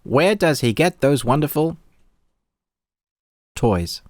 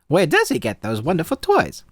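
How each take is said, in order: First: It is said in his own natural voice. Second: It is said in a put-on character voice.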